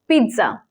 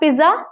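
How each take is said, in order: First: The first syllable sounds like 'peet'. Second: The first syllable sounds like 'piz'. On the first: The speaker calls it right. "it's pizza. P E E T" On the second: The speaker calls it wrong. "It's not pizza"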